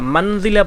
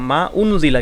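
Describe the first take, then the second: First: The two words run together without a glottal stop. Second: A glottal stop separates the two words. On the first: The speaker calls it wrong. "মানজিলা পড়ার কোনো সুযোগ নাই" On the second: The speaker calls it right. "হামজাটাকে উচ্চারণ করলাম"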